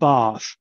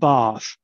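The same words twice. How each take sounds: First: It has a long, low back vowel. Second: It has a long, low back vowel.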